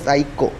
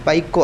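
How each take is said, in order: First: The word starts with an s sound. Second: The word starts with a p sound. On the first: The speaker calls it right. "അല്ല സൈക്കോ" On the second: The speaker calls it wrong. "പി ഉച്ചരിക്കൂല"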